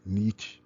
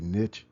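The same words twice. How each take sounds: First: It is said with a non-American pronunciation. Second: It is said with an American pronunciation. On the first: "as opposed to niche" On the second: "as an American, I say niche"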